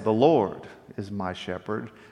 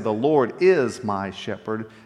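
First: The stress falls on the word 'Lord'. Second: The stress falls on the word 'my'. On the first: It highlights who God is: his glory and power. "I'm emphasizing the Lord, the who the Lord is" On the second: It highlights the personal relationship with God. "now I'm emphasizing the relationship that I have with the Lord"

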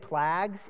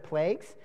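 First: The vowel is overcorrected away from the usual sound. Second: The vowel is said the usual, normal way. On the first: The speaker calls it wrong. "sometimes I overcorrect and say plagues" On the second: The speaker calls it right. "instead of plagues"

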